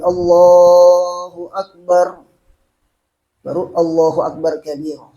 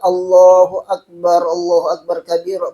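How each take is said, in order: First: A short pause separates the two phrases. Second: The two phrases run together without a pause.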